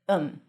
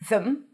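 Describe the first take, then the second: First: It drops the th, sounding like um. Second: It has a th and a reduced schwa. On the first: "sometimes you even drop the th. And then it sounds like um" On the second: "When it's unstressed, you can either pronounce it as them"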